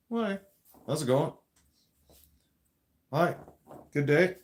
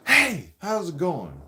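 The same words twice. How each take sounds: First: Friendly, even, normal-volume hello; polite greeting. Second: Slow, loud, in-your-face hey; loud greeting. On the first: Showing the viewer a respectful greeting, calm and friendly. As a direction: greet them kindly at an easy level. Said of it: "That's different". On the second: Demoing a rude greeting to the viewer, loud and slow. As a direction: bark the greeting right at their face, drawn out. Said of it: "Kind of like that". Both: Shown as a demonstration.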